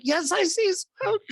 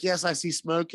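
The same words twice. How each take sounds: First: Very high, slow mock-panicked squeal; hammed-up panic. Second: Said in the usual way. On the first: Caller answers dispatcher about smoke, hammed-up high panic. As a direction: squeal it out slowly, far above your voice.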